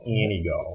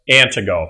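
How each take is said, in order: First: The middle T sound is dropped entirely. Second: The middle T sound is clearly pronounced. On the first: This is how the local people say it. "The natives in Anigo pronounce it Anigo" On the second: This is how an outsider reads the spelling. "How would you pronounce A N T I G O?"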